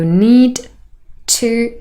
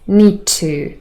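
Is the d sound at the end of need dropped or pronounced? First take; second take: pronounced; dropped. First: The d at the end of need is pronounced. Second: The d is dropped and only t is heard.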